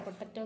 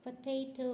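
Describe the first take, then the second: First: പൊട്ടറ്റോ with a short plain "e" in the middle; everyday "potteto" sound for പൊട്ടറ്റോ; wrong pronunciation. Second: പൊട്ടാറ്റോ softly, with "tay" in the middle; corrected pronunciation. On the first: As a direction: say പൊട്ടറ്റോ as "pot-TET-o". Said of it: "എന്നല്ല pronounce ചെയ്യുന്നത്". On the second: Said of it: "പിന്നെ എങ്ങനെ pronounce ചെയ്യുന്നത്". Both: Shown as a demonstration.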